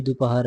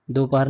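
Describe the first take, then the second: First: दोपहर said with u, as du-pahar; short "du" opening दोपहर; correct vowel. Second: दोपहर with an o in the first syllable; wrong vowel. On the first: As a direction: say du-pa-har for दोपहर. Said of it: "ऐसे लिखेंगे". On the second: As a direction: say do-pahar for दोपहर. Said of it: "नहीं". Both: Shown as a demonstration.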